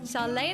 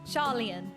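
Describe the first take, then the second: First: The name ends in a single -leen sound. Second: The name ends in a two-syllable -lian sound. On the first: The speaker calls it wrong. "I read it as Charlene" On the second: The speaker calls it right. "that's not right"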